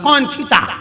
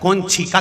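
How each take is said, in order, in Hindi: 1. यह वाक्यांश बच्चों जैसी तुतलाहट के साथ बोला गया है। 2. यह वाक्यांश स्पष्ट और सामान्य रूप से बोला गया है। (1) "थोड़ी तोतरी तोतरी भाषा थी" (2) "की जगह"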